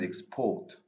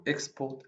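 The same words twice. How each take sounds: First: PORT in "export" stressed, first syllable lighter; "export" with the beat on PORT; stress on second syllable. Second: EX in "export" stressed, second syllable lighter; "export" with the beat on EX; stress on first syllable. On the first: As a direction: lean on the end of "export", as ex-PORT. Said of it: "or the second syllable". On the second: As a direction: hit the start of "export", as EX-port. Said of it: "placing the stress on the first syllable". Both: Shown as a demonstration.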